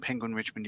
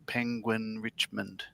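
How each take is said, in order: First: It is said at a normal, quicker pace. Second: It is said slowly, with drawn-out words.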